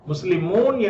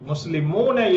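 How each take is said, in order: First: The word ends on the consonant n. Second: The short final vowel is pronounced.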